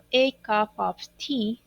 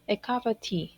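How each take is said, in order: First: Each word is said separately with full vowels. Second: The words run together with a weak 'of'. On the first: "pronunciar como por cada palabra por separado, diciendo a cup of tea" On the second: "diríamos a cup of tea, ¿ok? En ese connected speech"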